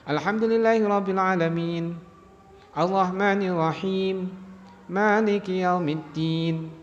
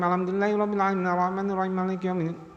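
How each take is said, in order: First: Each verse is followed by a short pause. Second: The verses run together without any pause. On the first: "ada berhenti jeda sebentar, ini wakaf benar ... Jadi ada putus-putusnya" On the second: "itu berarti mboten putus-putus. Mboten-mboten ada jedanya"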